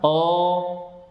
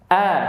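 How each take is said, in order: First: The vowel is heavy and rounded, toward o. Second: The vowel is thin and light, a clear a. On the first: The speaker calls it wrong. "bukan oh" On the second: The speaker calls it right. "sehingga dibaca tipis"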